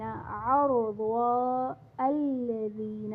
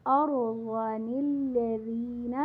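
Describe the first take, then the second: First: ارضا ends on a long a and الذین starts fresh, with no nun; pausing reading. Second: ارضا للذین recited slowly as arozan-illadhin with the nun sounded; joined reading. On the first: Teacher showing students the pause at the verse end, slow recitation. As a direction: stop on ارضا, then begin الذین anew, very slowly. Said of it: "اور جب وقف کریں گے ارضا". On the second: Teacher showing students the joined reading, slow recitation. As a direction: carry ارضا into للذین with a clear connecting nun. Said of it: "ملا کر پڑھیں گے تو نون قطنی کو پڑھیں گے".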